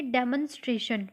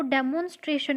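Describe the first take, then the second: First: डेमोन्स्ट्रेशन with a reduced second vowel, "DEM-un-stray-shun"; correct pronunciation. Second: डेमोन्स्ट्रेशन with a full O in the second syllable, "de-MOHN-stray-shun"; wrong pronunciation. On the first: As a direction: say डेमोन्स्ट्रेशन with a short, neutral "mun" for "mon". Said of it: "क्या बोलेंगे". (डेमोन्स्ट्रेशन के "मोन" को हल्का "मन" जैसा बोलते हुए) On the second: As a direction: say डेमोन्स्ट्रेशन with a long, rounded "mon". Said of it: "इसको डेमोन्स्ट्रेशन नहीं बोलेंगे". (डेमोन्स्ट्रेशन के "मोन" में पूरा "ओ" बोलते हुए) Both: Shown as a demonstration.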